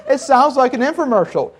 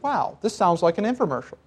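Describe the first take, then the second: First: Laughing through it, higher. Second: Said in the usual way. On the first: Real, not acted. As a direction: chuckle the repeat.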